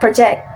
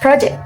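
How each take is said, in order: First: The stress is on the second syllable. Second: The stress is on the first syllable. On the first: It is the verb. The speaker calls it wrong. "not project" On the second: It is the noun. The speaker calls it right. "the right pronunciation in the text is project"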